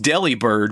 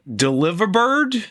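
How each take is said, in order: First: The start sounds like the word deli. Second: The start sounds like the word delivery. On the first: The speaker calls it wrong. "this is not pronounced Delibird" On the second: The speaker calls it right. "supposed to be pronounced like delivery"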